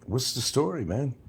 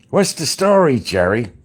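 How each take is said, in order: First: Said in the usual way. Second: Much higher, louder New York salesman call; car salesman catchphrase. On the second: Retold or imitated. Quoting an old car commercial, high and loud. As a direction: belt it like a TV ad pitchman. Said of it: "There was a commercial, a car salesman".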